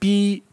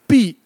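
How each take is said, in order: First: The pitch stays high and level throughout. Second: The pitch falls sharply from high to low. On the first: It is a vulgar word for female genitals. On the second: It is the speaker's family name. "fourth tone, is my last name"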